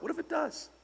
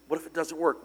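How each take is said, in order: First: Sudden high, thin-voiced "does"; high hopeful question. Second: Said in the usual way. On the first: Shown as a demonstration.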